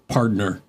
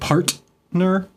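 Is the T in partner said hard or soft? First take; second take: soft; hard. First: The T in the middle is soft. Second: The T in the middle is a hard T. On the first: The speaker calls it right. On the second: The speaker calls it wrong.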